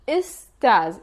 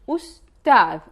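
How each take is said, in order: First: It starts with 'i' and ends in buzzing 'z'. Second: It starts with 'u' and ends in soft 'th'. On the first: "In the Levantine dialect, we use istaz" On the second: "In the modern standard Arabic, it means teacher"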